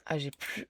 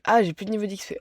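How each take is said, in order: First: Said in the usual way. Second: Loud, annoyed cry of dismay; frustrated outburst. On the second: Real, not acted. Runs out of XP, frustrated.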